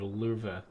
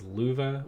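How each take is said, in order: First: The word is said with a slight R sound. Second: The word is said without an R sound.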